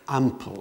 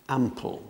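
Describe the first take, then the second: The two takes are said the same way.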